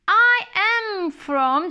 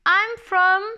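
First: Both words 'I am' are said in full. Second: 'I am' is shortened and swallowed into 'I'm'.

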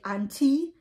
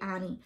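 First: The t sound in the middle is pronounced. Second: The t sound in the middle is dropped. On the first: "they pronounce the T and they be like auntie" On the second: "a lot of times I just say Annie"

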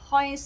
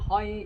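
First: The syllable is said on a high level pitch. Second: The syllable is said on a low level pitch. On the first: "เสียง1 ก็คือหอย" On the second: "เสียงที่6 เป็นเสียงต่ำ"

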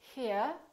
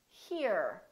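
First: The final R is not pronounced. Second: The final R is clearly pronounced. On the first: This is the British way of saying it. "The first one that I did was a British R" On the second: This is the American way of saying it. "The second one sounds like an American accent"

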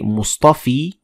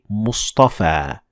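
First: The word ends with an 'ee' vowel. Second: The word ends with an 'ah' vowel. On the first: The speaker calls it wrong. "we don't say Mustafi" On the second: The speaker calls it right. "we say Mustafa"

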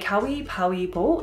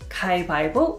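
First: The first two words keep a w sound. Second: The first two words drop the w sound. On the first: "this sort of long version" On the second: "people usually shorten it to"

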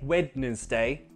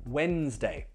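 First: The middle 'd' is pronounced, giving three syllables. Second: The middle 'd' is silent, giving two syllables. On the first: The speaker calls it wrong. "We don't say Wednesday" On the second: The speaker calls it right.

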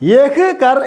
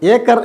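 First: The first word is pronounced in full as yah. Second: The first word is reduced to a plain e. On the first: "യഹ് കർ എന്ന് എഴുതും" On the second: "ഏ കർ എന്ന് വായിക്കും"

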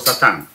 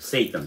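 First: The first vowel is an open 'ah' sound. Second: The first vowel is an 'ay' glide sound. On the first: "мы называем по-еврейски его Сатан" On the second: This is how Christians name it. "они называют его Сейтан"

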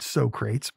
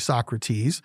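First: The name is said in a jokey film pronunciation. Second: The name is said in the standard pronunciation. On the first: "they pronounced it Socrates" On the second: "actually Socrates"

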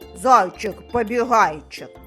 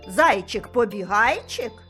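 First: It is said in an angry, cross tone. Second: It is said in a surprised, wondering tone. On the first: "Спробуємо сказати сердито" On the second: "А тепер здивовано"

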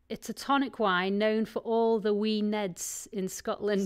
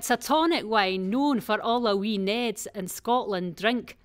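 First: It is said in her plain accent. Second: It is said in a put-on Scottish accent.

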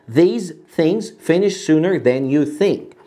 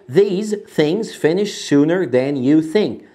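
The two takes are said the same way.

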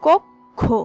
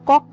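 First: The first vowel is a rounded 'o' sound. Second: The first vowel is an open 'aw' sound. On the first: The speaker calls it right. "এর সঠিক উচ্চারণ হবে কক্ষ" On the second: The speaker calls it wrong. "যেটিকে আমরা কক্ষ বলি, কিন্তু কক্ষ সঠিক নয়"

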